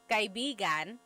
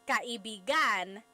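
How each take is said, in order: First: The stress falls in its default position. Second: The stress is moved to another syllable. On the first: It means friend. "So kaibigan means friend" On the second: It means lover. "But if you put the stress somewhere else"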